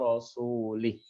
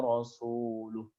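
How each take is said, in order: First: The vowel before the final h is 'i'. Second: The vowel before the final h is 'u'. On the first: The speaker calls it wrong. "Dibaca dengan kasroh" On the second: The speaker calls it right. "Harusnya dia membaca dengan dom dhammah"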